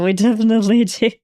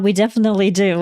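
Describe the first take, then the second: First: Laughing through it, a bit faster. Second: Said in the usual way. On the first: Real, not acted. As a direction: repeat it with a laugh breaking in. Repeats line, second take laughing.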